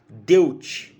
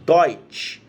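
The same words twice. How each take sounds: First: The vowel is said as separate e-u. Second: The vowel is said as oy. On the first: The speaker calls it wrong. "a gente não vai pronunciar Deutsch" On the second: The speaker calls it right. "vai ser Deutsch ... Eles vão ter um som de Oi"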